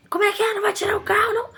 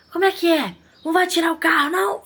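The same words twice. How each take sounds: First: Much higher, exaggerated mocking of the attendant's cheek; rude challenge. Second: Higher, mocking a cocky, confrontational attendant; rude challenge. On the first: Shop owner re-enacting the attendant's rude challenge, hammed-up. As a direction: repeat his challenge with even more scorn. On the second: Shop owner imitating the attendant confronting her customer, mocking. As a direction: throw the question back with scornful disbelief. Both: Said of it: "Falando desse jeito, gente".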